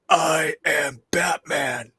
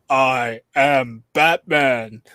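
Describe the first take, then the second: First: A harsh, growly, barky voice. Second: A deeper voice without a growl.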